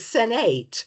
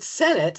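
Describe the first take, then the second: First: The last syllable is said fully, like 'eight'. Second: The last syllable is reduced, like 'it'. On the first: "I'm doing spelling pronunciation" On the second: "I'm looking at the word Senate"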